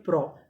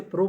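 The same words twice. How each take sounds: First: "प्रो" with an open "aw" vowel, like "praw"; teacher's model "प्रो" with open o; correct open vowel. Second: "प्रो" with a closed "oh" vowel; the mistaken "प्रो", rhyming with English "go"; rejected closed vowel. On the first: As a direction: say "प्रो" as "praw", not "proh". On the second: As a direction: say "प्रो" as "proh", not "praw". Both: Shown as a demonstration. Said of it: "ना हम इसे प्रो पढ़ते हैं".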